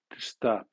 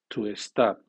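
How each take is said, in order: First: The word starts directly with the s sound. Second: An extra vowel sound comes before the s. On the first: The speaker calls it right. "Eso debe de ser" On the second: The speaker calls it wrong. "el alumno comenzará por vocal la siguiente palabra que comience por S"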